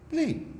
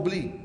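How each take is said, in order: First: Beli said much higher, pushed and final; insistent echo of Beli; emphatic high beli. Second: Said in the usual way. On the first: Acted. Repeats advice, second take.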